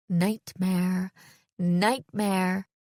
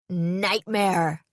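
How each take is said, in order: First: "Nightmare" evenly repeated, each one drawn out; echoing thought. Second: Sudden guttural cry into a mic, somewhat restrained; deep guttural shout. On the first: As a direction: let "Nightmare" hang like a looping thought. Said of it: "That word echoed in my head on a loop". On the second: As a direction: shout "Nightmare" from the throat. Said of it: "suddenly shouted into the mic, using a deep, guttural voice". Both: A narrator's reading.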